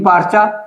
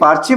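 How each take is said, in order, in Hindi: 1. शब्द "parcha" 'a' स्वर पर खत्म होता है। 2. शब्द "parcha" 'e' स्वर पर खत्म होता है।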